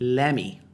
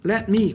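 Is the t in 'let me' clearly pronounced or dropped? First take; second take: dropped; pronounced. First: The t is dropped, sounding like 'leme'. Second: The t is clearly pronounced between the words.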